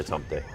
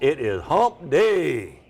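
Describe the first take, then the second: First: It is said quietly, without emphasis. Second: It is said loudly, with emphasis. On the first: "I just say it's hump day. Kind of takes all the fun out of it" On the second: "we will just do a little emphasis"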